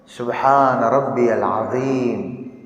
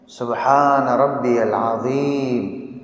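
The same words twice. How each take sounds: No difference in how they are said.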